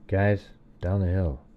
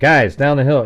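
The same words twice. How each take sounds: First: It is said quietly, voice kept down. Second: It is said loudly and clearly.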